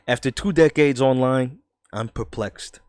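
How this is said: It is said in a New York accent. The speaker calls it right. "I'm gonna do a New York accent"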